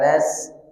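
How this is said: The word breaks off after the s sound. The speaker calls it wrong. "Jangan diputus"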